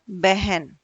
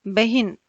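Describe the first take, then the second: First: बहन with e-like vowels, "behen"; correct vowel. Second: बहिन with i in the second syllable; wrong vowel. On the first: Teacher gives correct बहन, said "behen". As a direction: say बहन without any i. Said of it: "शुद्ध रूप में क्या आएगा". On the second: Teacher shows wrong बहिन, with short i. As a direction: say बहिन as "bahin". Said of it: "अशुद्ध रूप का प्रयोग". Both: Shown as a demonstration.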